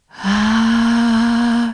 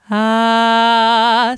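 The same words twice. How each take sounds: First: The vowel is breathy and airy. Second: The vowel is clear and firm. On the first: The speaker calls it wrong. "un sonido airoso sería así" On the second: The speaker calls it right. "voy a darle un poquito más de cierre a mis cuerdas"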